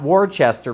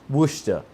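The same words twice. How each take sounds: First: The name is said in a non-local pronunciation. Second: The name is said in the local pronunciation. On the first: The speaker calls it wrong. "I know it's not Worcester" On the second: The speaker calls it right. "they all snapped their heads at me and said"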